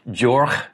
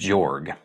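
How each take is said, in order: First: The name ends in a throat-clearing sound. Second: The name ends in a hard g sound. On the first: The speaker calls it right. "the sound like clearing your throat" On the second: The speaker calls it wrong. "I've been saying"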